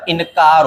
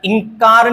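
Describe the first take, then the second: First: इनकार said as "in-kaar"; separate न. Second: इंकार said higher as "ing-kaar"; ng nasal. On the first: Teacher correcting, इनकार with separate n. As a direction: sound a clear n in इनकार. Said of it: "इनकार होता है". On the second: Teacher showing the mistake, इंकार as "ing-kaar". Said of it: "इंकार नहीं होता". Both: Shown as a demonstration.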